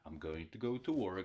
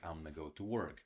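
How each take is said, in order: First: 'Going to' is said in full. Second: 'Going to' is reduced to 'gonna'.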